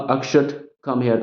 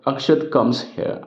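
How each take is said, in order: First: There is a pause after the name. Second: There is no pause after the name.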